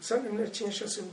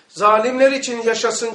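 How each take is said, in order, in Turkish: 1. İfade alçak sesle mırıldanılarak söyleniyor. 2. İfade yüksek sesle bağırılarak söyleniyor. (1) "kendi kendine mırıldandı" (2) "yüksek ve haykırarak yüksek sesle"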